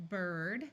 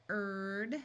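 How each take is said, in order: Both takes have the same delivery.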